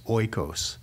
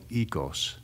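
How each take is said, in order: First: The vowels are said the Western way, like 'oy'. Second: The vowels are said the modern Greek way. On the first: "in the Western world, they would say it as oikos" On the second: "the way you say it in modern Greek is the vowels are said a little bit differently"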